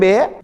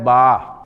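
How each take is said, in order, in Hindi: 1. अक्षर का नाम e स्वर से खत्म होता है। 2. अक्षर का नाम a स्वर से खत्म होता है। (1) "उर्दू में बे" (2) "अरबी में इसकी प्रोनाउंसिएशन जो है वो है बा"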